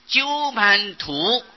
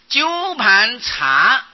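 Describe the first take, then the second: First: The final syllable is pronounced tu. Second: The final syllable is pronounced cha. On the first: The speaker calls it wrong. "而不是鸠盘图" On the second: The speaker calls it right. "应当是查不是图"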